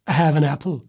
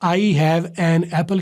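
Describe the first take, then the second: First: The words run together, linked into one flow. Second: The words are said separately, one by one. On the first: The speaker calls it right. "तो उससे भी मिला देना" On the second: The speaker calls it wrong. "की बजाय"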